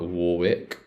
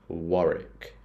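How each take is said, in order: First: The second W is pronounced. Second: The second W is silent, ending in 'rick'. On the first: The speaker calls it wrong. "This one's not Warwick" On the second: The speaker calls it right. "This one is Warwick ... it's like a Rick sound. You can get rid of the W"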